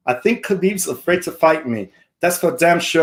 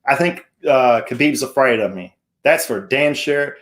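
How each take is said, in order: First: Put-on higher-pitched amateur Irish accent; hammed-up Irish brogue, pitched up; Conor McGregor. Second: Said in the usual way. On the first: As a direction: do your best Irish fighter impression. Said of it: "my best Irish voice". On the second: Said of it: "Hold on, let me restart".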